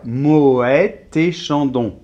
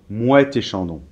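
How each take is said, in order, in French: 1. Le prénom a deux syllabes vocaliques distinctes. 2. Le prénom est une seule syllabe fusionnée. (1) "on devrait séparer" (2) "les Français, généralement, euh, font plutôt"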